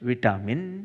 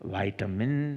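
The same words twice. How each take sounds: First: It is said in a British accent. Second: It is said in an American accent.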